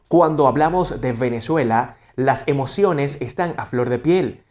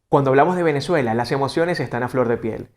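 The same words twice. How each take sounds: First: It is slow, marking each syllable clearly. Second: It is at a natural, lively conversational pace. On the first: "marcamos bien cada sílaba" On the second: "leemos de forma natural"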